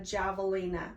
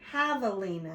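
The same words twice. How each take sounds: First: The word begins with a J sound. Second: The word begins with an H sound. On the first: The speaker calls it wrong. "Miss May pronounced it wrong" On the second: The speaker calls it right. "It starts with the letter J, but it makes the H sound"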